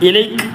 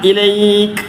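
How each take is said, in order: First: The ay vowel is kept short. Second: The ay vowel is slightly lengthened. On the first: The speaker calls it wrong. "ഇലൈക് അല്ല" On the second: The speaker calls it right. "ചെറിയ നിലക്ക് വന്ന് നീട്ടുക"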